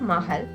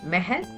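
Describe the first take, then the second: First: The first vowel sounds like a. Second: The first vowel sounds like e. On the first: "It's not Mahal" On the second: "pronounced as Mahal by a native speaker"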